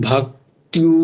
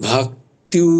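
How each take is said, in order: No difference in how they are said.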